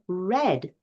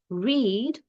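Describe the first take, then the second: First: The vowel is short, rhyming with bed. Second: The vowel is long, rhyming with seed. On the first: It is the past tense. "or the book has been read" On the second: It is the present tense. "So we can read the book"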